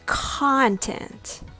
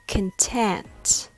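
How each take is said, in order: First: The stress is on the first syllable. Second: The stress is on the second syllable. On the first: "Content has the stress on the first syllable" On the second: "Content has the stress on the second syllable"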